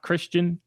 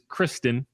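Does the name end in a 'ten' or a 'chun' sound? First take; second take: chun; ten. First: The name ends with a 'chun' sound. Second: The name ends with a clear 'ten' sound. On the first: The speaker calls it wrong. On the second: The speaker calls it right. "It is Kristen"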